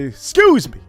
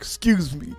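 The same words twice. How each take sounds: First: It is said in a forceful, assertive tone. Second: It is said in a soft, timid tone.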